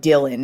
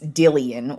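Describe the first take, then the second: First: The name is said with two syllables. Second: The name is said with three syllables. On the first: The speaker calls it wrong. "I actually was mispronouncing his name" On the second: The speaker calls it right.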